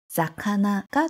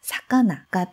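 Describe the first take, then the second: First: The word begins with a voiced z sound. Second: The word begins with a voiceless s sound. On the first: This is the word as the second part of a compound. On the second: This is the word standing alone.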